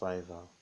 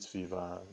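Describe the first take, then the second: First: Said with a standard English pronunciation. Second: Said with a Nigerian English pronunciation. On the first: "It's pronounced Fiverr" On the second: "due to my Nigerian pronunciation"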